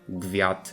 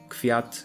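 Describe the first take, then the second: First: The first consonant is a voiced g. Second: The first consonant is a voiceless k. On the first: The speaker calls it wrong. "not gwiat" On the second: The speaker calls it right. "so we get kwiat"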